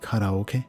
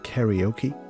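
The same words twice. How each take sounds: First: It is pronounced with Japanese-style vowels and rhythm. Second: It is pronounced with English-style vowels and rhythm. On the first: "how I said karaoke ... I'm catering towards my Japanese fans" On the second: "instead of karaoke"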